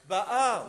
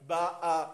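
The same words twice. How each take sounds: First: The stress is on the last syllable. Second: The stress is on the first syllable. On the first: The speaker calls it right. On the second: The speaker calls it wrong. "Il ne faut pas lire Ba'a"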